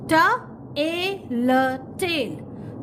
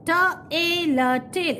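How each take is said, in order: First: "T, A, L" letter by letter then "tail"; spell, pause, blend the word. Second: "T, A, L" then "tail" as one sound; spell then blend. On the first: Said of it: "In this way you have to read". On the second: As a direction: show the middle sound is one. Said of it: "It is one sound". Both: Shown as a demonstration.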